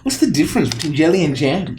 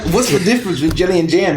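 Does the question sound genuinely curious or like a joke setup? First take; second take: genuinely curious; joke setup. First: It sounds like a genuinely curious question. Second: It sounds like the setup of a joke. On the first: The asker really wants to know the answer. "he genuinely is curious" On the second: The asker already knows a punchline. "he didn't ask, like"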